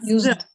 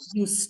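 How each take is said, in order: First: The s sounds like a buzzing z. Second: The s sounds like a hissing s. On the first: Something was made use of. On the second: Something was done regularly in the past.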